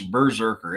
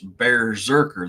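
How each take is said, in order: First: The first syllable sounds like 'burr'. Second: The first syllable sounds like 'bear'. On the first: The speaker calls it wrong. "everybody thinks it's berserker" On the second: The speaker calls it right. "It's berserker. They took the uh, essence of the bear"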